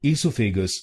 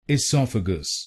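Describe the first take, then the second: First: "esophagus" said wrongly as ee-so-fe-gus; the mistaken "esophagus" with long ee and flat o; wrong pronunciation. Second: "esophagus" as i-SOF-a-gus, short i, stress on sof; correct pronunciation. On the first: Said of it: "esophagus नहीं बोलिए". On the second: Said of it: "इसको बोलिए esophagus". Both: Shown as a demonstration.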